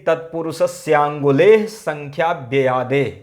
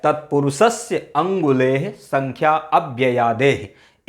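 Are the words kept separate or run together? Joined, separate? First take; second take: joined; separate. First: The words are run together with vowels merged. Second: Each word is said separately without joining sounds. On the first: "एक साथ पढ़ोगे तो क्या कहोगे" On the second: "अलग अलग से पढ़ सकते हो"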